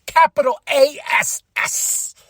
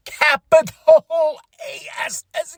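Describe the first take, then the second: First: Said in the usual way. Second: "Capital A S S" drawn out, each letter slow and weighted; spelled slowly. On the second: Shown as a demonstration. Vlogger to viewers, spelling "Capital A S S" out slowly.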